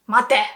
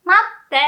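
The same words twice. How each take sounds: First: 待て with a quick single t; short t, no tsu. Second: 待って with a held double t stop; long small tsu. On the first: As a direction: clip 待て with no held stop. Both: Shown as a demonstration. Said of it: "Can you hear the difference?".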